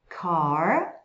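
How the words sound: The final r is clearly pronounced, curled. "esse R no final das palavras, principalmente no inglês americano ... vai ser bem enrolado"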